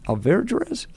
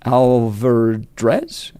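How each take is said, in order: First: Alverdrez asked high and soft; retry name. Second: Alverdrez said slowly, rising; unsure name. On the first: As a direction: ask Alverdrez again, rising. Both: Shown as a demonstration.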